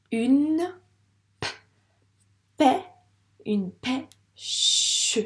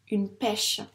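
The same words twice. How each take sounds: First: "une pêche" built up in separate, drawn-out pieces; sounding out slowly. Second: Said in the usual way. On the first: Shown as a demonstration. Teacher modelling reading, "une pêche" pieced together with pauses. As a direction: decode "pêche" as p, pê, then a long "che". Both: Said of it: "je te laisse lire".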